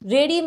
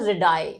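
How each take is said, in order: First: The word ends with an 'ee' sound. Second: The word ends with an 'eye' sound. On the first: The speaker calls it wrong. "आप इसको रेडी मत पढ़िएगा" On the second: The speaker calls it right. "तो हम आई ही pronounce करेंगे"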